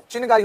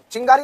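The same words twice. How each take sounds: First: चिनगारी with a clear separate n; correct form demonstrated. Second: चिंगारी with a nasal "ng", no separate n; wrong form demonstrated. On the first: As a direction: say चिनगारी as "chin-gaari". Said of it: "चिनगारी होता है". (चिनगारी में "न" अलग और साफ़) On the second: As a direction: say चिंगारी as "ching-gaari". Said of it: "चिंगारी नहीं होता". (चिंगारी में अनुस्वार, "चिङ्गारी" जैसा) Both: Shown as a demonstration.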